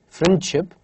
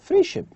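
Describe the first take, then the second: First: The d sound is clearly pronounced. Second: The d sound is dropped. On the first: "instead of saying friendship" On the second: "The sound D is deleted. we just say friendship"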